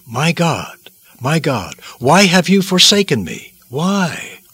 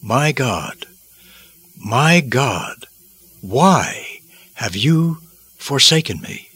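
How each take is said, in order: First: Anguished cry rising high on the question; agonized plea. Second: Slow, weighty cry of agony with long pauses; agonized lament. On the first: Christ on the cross questions God, high agonized plea. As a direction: plead upward, desperate to know why. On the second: Christ on the cross calls to God, slow agonized lament. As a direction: draw it out in heavy anguish. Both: Acted. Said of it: "horrific pain he experienced caused him to utter".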